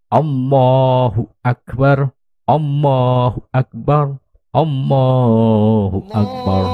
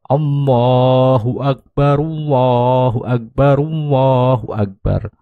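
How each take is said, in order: First: Pauses separate each of the three phrases. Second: The three phrases run together in one chain. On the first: "jika kita ingin melakukan pemisahan" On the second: "menyambung antara lafaz Allahu Akbar yang pertama, yang kedua, dan yang ketiga menjadi satu rangkaian"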